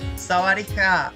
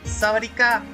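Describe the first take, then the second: First: The k is soft, letting some air through. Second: The k is a hard, fully closed stop. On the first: The speaker calls it right. "there we go" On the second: The speaker calls it wrong. "I did it wrong again"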